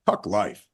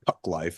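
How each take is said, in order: First: Run together so it sounds like 'look at life'. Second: Said as two separate words, not like 'look at life'. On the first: The speaker calls it right. "Like, look at life" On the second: The speaker calls it wrong. "It's not"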